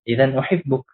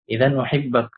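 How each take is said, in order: First: The last word ends with an 'uk' sound. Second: The last word ends with an 'ak' sound. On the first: The speaker calls it wrong. "di sini tidak boleh uhibbuk" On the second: The speaker calls it right. "Maka dibaca uhibbak"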